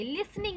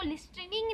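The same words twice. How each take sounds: First: "लिसनिंग" with a silent t, lis-ning; correct pronunciation. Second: "लिसनिंग" with the t wrongly sounded, list-ning; wrong pronunciation. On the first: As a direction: say "लिसनिंग" without any t sound. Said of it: "लिसनिंग बोलते हैं". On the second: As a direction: pronounce the silent t in "लिसनिंग". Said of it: "हम इसको लिसनिंग नहीं बोलते". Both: Shown as a demonstration.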